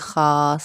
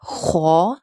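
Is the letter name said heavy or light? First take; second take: light; heavy. First: The vowel sounds thin and light, like 'khaa'. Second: The vowel sounds full and heavy, like 'khau'. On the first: This is an old-fashioned colloquial reading. The speaker calls it wrong. "मजहूल लहजे में जैसे हमारी नानियाँ दादियाँ पढ़ते थे" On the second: This is the proper recitation. The speaker calls it right. "ये हरूफ जो है ना हमेशा मोटे पढ़े जाते हैं"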